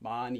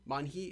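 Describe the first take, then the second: First: No h sound; the n links into the vowel. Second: An h sound is heard between the syllables. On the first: The speaker calls it right. "It's just ma ni" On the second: The speaker calls it wrong. "don't say man hi"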